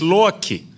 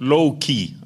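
First: The name is said in a non-Hollywood style. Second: The name is said in the Hollywood style. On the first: The speaker calls it right. "it is Loki" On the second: The speaker calls it wrong. "not Loki, as they pronounce it in Hollywood"

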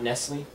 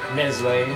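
First: The word ends with an 'l' sound. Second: The word ends with an 'ay' vowel sound. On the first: The speaker calls it wrong. "It's not Nestle" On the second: The speaker calls it right. "Everybody pronounce it right"

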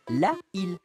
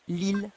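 First: The article's vowel is pronounced before île. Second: The article's vowel is dropped before île. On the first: The speaker calls it wrong. "et non pas la île" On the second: The speaker calls it right. "on dit bien l'île"

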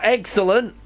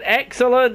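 First: The word begins with a voiced 'eggs' sound. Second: The word begins with a plain 'ex' sound. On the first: It is a pun on eggs. "not excellent! There's a difference" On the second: The speaker just means the meal is very good. "I said excellent"

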